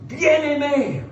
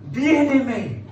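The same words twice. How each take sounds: The two takes are said the same way.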